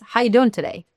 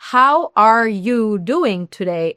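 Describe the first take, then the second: First: The words are run together quickly and linked. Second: Each word is said slowly and separately. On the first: The speaker calls it right. "ellos hablan mucho más rápido" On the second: The speaker calls it wrong. "no es"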